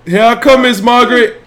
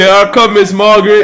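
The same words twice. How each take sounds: First: High, loud playful repeat of the call; mock sing-song call. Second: Put-on high, loud playful call of the toddler's line; mock sing-song call. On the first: Dad repeating the baby's line while cheering, playful call. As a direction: sing it out again for the baby. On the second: Dad voicing the baby's line to cheer him on, playful call. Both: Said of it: "Say, "Here I come, Miss Margaret".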